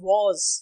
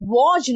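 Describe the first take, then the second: First: The word ends with a 'z' sound. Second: The word ends with a 'j' sound. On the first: The speaker calls it right. "इट्स" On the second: The speaker calls it wrong. "नहीं होता"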